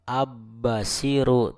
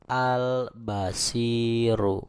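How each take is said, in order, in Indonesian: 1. L menyatu menjadi bunyi B yang dobel. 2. L terdengar jelas sebelum B. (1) "bukan abbasiru" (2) "tapi al-basiru"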